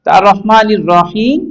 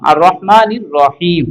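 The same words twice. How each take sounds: First: আর রহমানির রহিম drawn out slowly, রহিম ending on a rise; slow recitation. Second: আর রহমানির রহিম slow, final রহিম closed on a silent sakin mim; stop on sakin mim. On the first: Teacher reciting the joined phrase to students, slowly. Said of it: "জেরের পর ইয়া সাকিন উচ্চারণ হবে না". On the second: Teacher showing students the pause form ending on sakin mim. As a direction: end রহিম cleanly on the mim. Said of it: "মিম সাকিন ম". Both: Shown as a demonstration.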